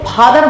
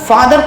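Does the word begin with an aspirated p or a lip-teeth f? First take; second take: aspirated p; lip-teeth f. First: The word begins with an aspirated p sound. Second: The word begins with a lip-teeth f sound. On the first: The speaker calls it wrong. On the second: The speaker calls it right.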